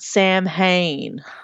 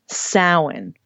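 First: It is said as spelled, sounding the h. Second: It is said with the traditional pronunciation. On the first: The speaker calls it wrong. "For you True Blood fans out there, not Samhain" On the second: The speaker calls it right. "And lastly"

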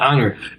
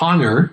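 First: The h at the start is silent. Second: The h at the start is pronounced. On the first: The speaker calls it right. "You say honorable and honor" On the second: The speaker calls it wrong. "you don't say honor"

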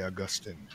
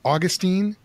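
First: The name is said in a formal, scholarly way. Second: The name is said in a casual, everyday way. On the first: This is meant to sound more learned. "So then I'll say Augustine" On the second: This is the habitual reading of the name. "I always pronounce it Augustine"

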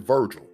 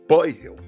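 First: The V and G have English sounds. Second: The V sounds like B, G like H. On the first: "My name in English is" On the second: "the V is pronounced like a B and the G is pronounced like an H"

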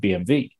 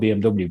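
First: The W is said with a V sound. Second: The W is said with an English W sound.

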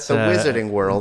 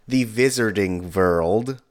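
First: It is said in a plain English accent. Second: It is said in a Russian-like accent.

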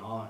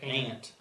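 First: It does not sound like the insect ant. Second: It sounds like the insect ant. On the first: This is not how people in the region say it. "We don't say aunt in West Virginia" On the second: This is how people in the region say it. "Like the bug"

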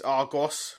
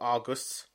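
First: The last syllable has a full 'oss' vowel. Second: The last syllable has a reduced 'us' vowel. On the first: The speaker calls it right. "it's Argos" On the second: The speaker calls it wrong. "not Argus"

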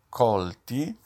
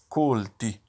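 First: The O vowel is open. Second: The O vowel is closed. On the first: Caught or struck. "colti si pronuncia con la O aperta" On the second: Educated. "se no diventa colti, cioè istruiti"

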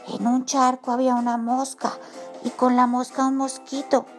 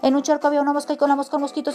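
First: It is said in a quiet voice. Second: It is said at a fast pace.

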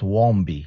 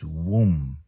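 First: A B and an extra vowel follow the M. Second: The word ends on a closed M, no B. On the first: The speaker calls it wrong. "It's not wombi" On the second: The speaker calls it right. "It's womb. And the B silent"

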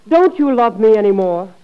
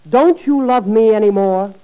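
No difference in how they are said.

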